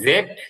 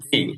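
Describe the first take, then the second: First: The letter name ends with a d sound. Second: The letter name ends with an ee sound. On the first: "এটাকে যেরকম জেড বলতে পারবেন" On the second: "এরকম এটাকে জিও বলতে পারবেন"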